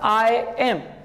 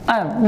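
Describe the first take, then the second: First: It is said as two separate full words. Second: It is said as one contracted syllable. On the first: The speaker calls it wrong. "not I am" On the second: The speaker calls it right. "combine these two words and say am"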